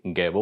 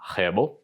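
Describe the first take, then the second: First: It begins with a hard G sound. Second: It begins with a soft G sound.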